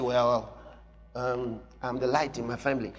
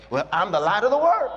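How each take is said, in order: First: Lower, softer hesitant mumble; timid believer. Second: Bold declaration. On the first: Pretend. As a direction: shrink the claim, unsure. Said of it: "So you say". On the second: Shown as a demonstration. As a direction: say it with confidence. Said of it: "Be bold".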